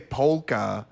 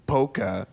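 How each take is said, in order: First: Polka is said normally, not rhyming with mocha. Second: Polka is said so it rhymes with mocha. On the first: "which is the correct way, it doesn't really rhyme" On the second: "when you say polka and mocha, it works"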